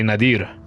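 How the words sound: The name is said with a Spanish accent. "a Mexican like myself, if we know more Spanish than English"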